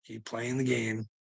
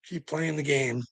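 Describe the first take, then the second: First: Softer and slowed, each word laid down; quiet menacing repeat to the watchers; quiet slow warning. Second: Said in the usual way. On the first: Real, not acted.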